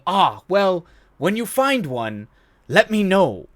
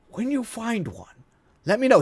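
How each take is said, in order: First: Dry professor retort. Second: Savoring the punchline. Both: Retold or imitated. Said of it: "him going".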